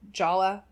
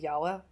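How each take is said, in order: First: The name begins with a J sound. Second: The name begins with a Y sound.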